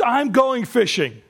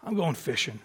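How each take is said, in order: First: Slow, raised announcement; declarative quotation. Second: Low, very soft murmur; resigned. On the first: Preacher quotes Peter from John twenty-one, declaring. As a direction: announce it slowly and higher. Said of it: "Peter says". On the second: Peter returns to his old life, resigned. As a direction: let it sink quietly, giving up. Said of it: "I almost wonder if he was just". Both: Acted.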